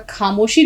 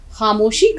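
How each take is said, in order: First: خاموشی with an aspirated k for خ; mispronunciation. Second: خاموشی with a throaty fricative kh; correct pronunciation. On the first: Teacher showing students the error, خاموشی with hard aspirated k. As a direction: say خاموشی starting with a hard k-h stop. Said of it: "آپ کا خاموشی نہیں ہوتا". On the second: Teacher correcting students' pronunciation, خاموشی with fricative kh. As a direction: say خاموشی with خ as a scraped sound. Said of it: "خے کی آواز صحیح ہونی چاہیے". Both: Shown as a demonstration.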